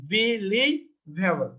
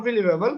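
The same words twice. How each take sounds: First: Believable drawn out very slowly, be-lie-va-ble; syllable by syllable. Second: Said in the usual way. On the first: Shown as a demonstration. Teacher showing why the word takes more, syllable by syllable. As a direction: separate each syllable of believable with small gaps. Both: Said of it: "এক, দুই, তিন".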